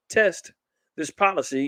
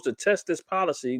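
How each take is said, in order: First: "test" set apart and pitched high; stress on TEST. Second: Said in the usual way. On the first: Real, not acted. Pointing listeners to the article's wording, stress on "test". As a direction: punch "test", then pause before going on. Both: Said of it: "notice it".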